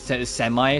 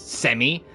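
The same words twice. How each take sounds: First: The word has an American pronunciation. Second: The word has a British pronunciation. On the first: "in the U S pronunciation is semi" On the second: "Whilst in the U K, or, you know, outside the U S"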